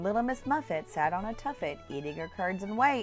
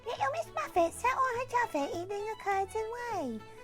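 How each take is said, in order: First: It is said in a normal voice. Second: It is said in a high-pitched voice.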